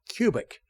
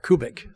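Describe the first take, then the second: First: The name is said in an English way. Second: The name is said in a German way. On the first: This is how the family itself says it. "she said Cubic" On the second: This is how it would be said in Germany. "Unless you're in Germany, then it's Kubits or Kubik"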